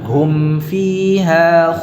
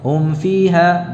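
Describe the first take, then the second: First: The m is clear, lips fully closed. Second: The m is blurred, lips not fully closed. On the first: The speaker calls it right. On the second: The speaker calls it wrong.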